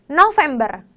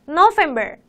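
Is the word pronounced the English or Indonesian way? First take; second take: Indonesian; English. First: The word is pronounced with Indonesian sounds. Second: The word is pronounced with English sounds.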